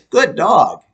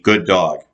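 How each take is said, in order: First: The praise sounds high, bright and lively. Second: The praise sounds low, deep and flat. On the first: The speaker calls it right. "Use that positive voice inflection" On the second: The speaker calls it wrong. "If you are normally have a deeper voice like mine, we don't want to be"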